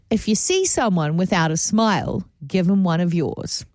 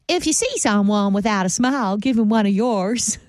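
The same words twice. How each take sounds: First: It is said in the speaker's natural accent. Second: It is said imitating the woman's accent.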